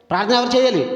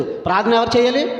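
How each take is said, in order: First: "చేయాలి" falling firmly like a statement; falling rhetorical question. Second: "చేయాలి" rising up as a real question. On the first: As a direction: state the question as a teacher, dropping at the end. ("చేయాలి" కిందకు దిగే గట్టి ప్రశ్నగా) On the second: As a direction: ask it, voice lifting at the end. ("చేయాలి" పైకి లేచే ప్రశ్నగా) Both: Shown as a demonstration. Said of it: "ప్రార్థన ఎవరు చేయాలని అంటున్నాను".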